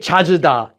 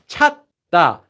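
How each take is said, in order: First: An extra vowel is inserted between the syllables. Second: No vowel is inserted between the syllables. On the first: The speaker calls it wrong. "You can't say 찾으다, that would make like an extra vowel here that doesn't exist" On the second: The speaker calls it right. "So now we have 찾다"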